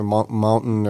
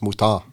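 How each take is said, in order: First: The name has an added N sound. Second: The name has no added N sound. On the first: The speaker calls it wrong. "I'm throwing an N after the O in the U, I'm like" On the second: The speaker calls it right. "but it's Mouton"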